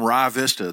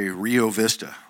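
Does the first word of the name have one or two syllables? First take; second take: one; two. First: The first word is one syllable, like 'rye'. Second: The first word is two syllables, 'ree-oh'. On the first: This is the local way of saying it. "we don't know how to talk out there" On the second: This is how outsiders say it. "that you guys would say Rio Vista"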